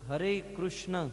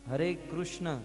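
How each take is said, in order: Both takes have the same delivery.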